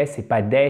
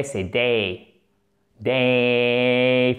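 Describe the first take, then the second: First: "day" with a flat French "é"; "day" clipped to a single French vowel. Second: "day" with a gliding "é-i" vowel from the throat; "Day" said deep in the throat with a gliding vowel; throaty day. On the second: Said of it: "Faites-le avec la gorge". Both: Shown as a demonstration.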